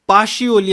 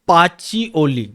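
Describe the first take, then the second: First: The middle consonant is an sh sound. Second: The middle consonant is a ch sound. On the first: This is how people all over the world say it. "All over the वर्ल्डमध्ये पाशिओली असं म्हणतात" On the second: This is how the English say it. "इंग्रज याचं pronunciation करतात"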